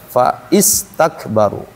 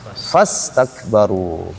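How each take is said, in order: First: The 'i' vowel is sounded after 'fa'. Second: The 'i' vowel is dropped and words merge. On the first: The speaker calls it wrong. "Bukan fa istakbaru" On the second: The speaker calls it right. "ketika dia posisinya di tengah, bacanya fastakbaru. Hilang tuh"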